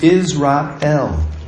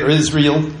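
First: The final 'el' is a full separate syllable. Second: The final syllable is reduced and blended in. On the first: The speaker calls it right. "It is Israel. El is the word God" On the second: The speaker calls it wrong. "we say it Israel. Some people say it that way"

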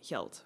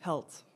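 First: It is said in formal Dutch, with the G. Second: It is said in coastal dialect, G like H.

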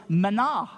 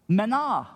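First: The word has a Hebrew pronunciation. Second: The word has a Hebrew pronunciation.

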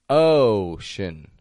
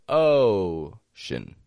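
Both takes have the same delivery.

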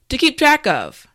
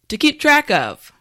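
The two takes are said the same way.

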